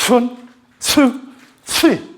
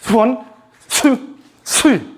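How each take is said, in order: No difference in how they are said.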